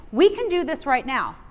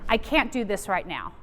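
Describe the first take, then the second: First: "We" punched, falling close; we can do this, said with confidence; stress on we. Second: "can't" stressed, lower and deflated; I can't do this, said with defeat. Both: Shown as a demonstration.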